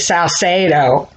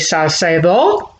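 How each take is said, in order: First: It is said with a Texan accent. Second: It is said with a Cuban Spanish accent.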